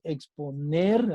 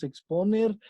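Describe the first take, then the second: First: Exponer stressed on the final syllable NER; slow exponer, last syllable NER drawn out. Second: Exponer stressed on the middle syllable PO. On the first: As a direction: say exponer slowly as ex-po-NER, landing on NER. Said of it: "decimos exponer". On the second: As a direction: say exponer as ex-PO-ner, accent on PO. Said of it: "no decimos exponer". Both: Shown as a demonstration.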